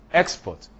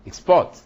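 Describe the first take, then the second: First: "export" punched high on EX; stress on first syllable. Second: "export" punched loud on PORT; stress on second syllable. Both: Shown as a demonstration. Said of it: "is in the placement".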